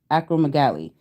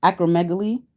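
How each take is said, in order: First: Acromegaly with a falling, decided end; settling on it. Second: Acromegaly with a rising, questioning end; trying it out. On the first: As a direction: land acromegaly with a firm fall. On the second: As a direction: test Acromegaly with a lift at the end. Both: Shown as a demonstration. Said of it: "I think it's acromegaly".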